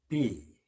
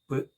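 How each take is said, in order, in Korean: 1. 글자 이름인 'bee'로 발음합니다. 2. 짧은 자음 소리로 발음합니다. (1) "명칭은 B이고" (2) "단어 속에서 내는 발음은 B"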